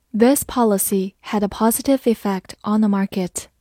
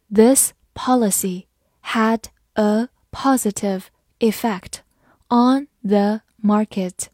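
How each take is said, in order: First: Said in the usual way. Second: Slow, deliberate, word by word; slow reading. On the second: Shown as a demonstration. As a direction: read it slowly so they can follow along. (跟着我慢读) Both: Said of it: "跟着我慢读一遍".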